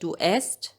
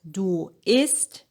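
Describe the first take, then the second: First: The verb is said with an 'e' vowel. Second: The verb is said with an 'i' vowel. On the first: The speaker calls it wrong. "if you said du esst, yeah, of course we understand it" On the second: The speaker calls it right. "instead of du isst"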